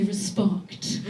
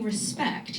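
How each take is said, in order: First: Respect with an open ah vowel, rispahkt; imitating a posh man saying respect as rispahkt. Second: Said in the usual way. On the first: Mocking her posh ex, respect said as rispahkt. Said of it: "instead of saying respect". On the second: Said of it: "would pronounce his words wrong".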